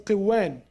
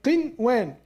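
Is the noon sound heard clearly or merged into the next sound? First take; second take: merged; clear. First: The noon is merged into the following sound. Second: The noon sound is pronounced clearly and separately. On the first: The speaker calls it wrong. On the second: The speaker calls it right.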